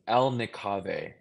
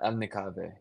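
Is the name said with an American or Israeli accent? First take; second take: American; Israeli. First: It is said with an American English accent. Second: It is said with an Israeli Hebrew accent.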